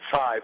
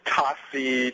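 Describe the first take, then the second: First: It is one syllable starting with a ts sound. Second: It is two syllables, ta and si. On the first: This is the correct form of the name. The speaker calls it right. "my last name is Tsai" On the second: This is a mistaken form of the name. The speaker calls it wrong. "to Tasi to all sorts of things"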